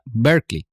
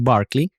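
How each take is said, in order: First: The first syllable sounds like 'ber'. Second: The first syllable sounds like 'bar'. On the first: This is the California city. "la ciudad en California se pronuncia Berkeley" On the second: This is the bishop's surname. "el apellido del obispo es Barclay"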